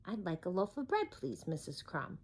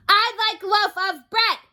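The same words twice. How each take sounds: First: Quietly. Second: High, loud boom. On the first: Mister Noisy finally asks the baker's wife politely, quiet. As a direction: ask gently and politely. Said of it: "he said quietly". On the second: Mister Noisy booms at the baker's wife, booming. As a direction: boom out the order. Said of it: "he boomed". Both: Acted.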